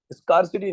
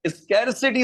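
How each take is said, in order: First: स्कार्सिटी starting like "scar"; rejected "skar" pronunciation. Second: स्कैरसिटी starting like "scare"; correct "skair" pronunciation. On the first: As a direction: say स्कार्सिटी with open "ah". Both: Shown as a demonstration. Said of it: "स्कार्सिटी नहीं होता".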